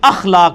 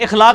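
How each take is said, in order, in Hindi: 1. यह शब्द 'a' स्वर से शुरू होता है। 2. यह शब्द 'i' स्वर से शुरू होता है। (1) "अखलाक लफ्ज है" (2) "इखलाक लफ्ज नहीं"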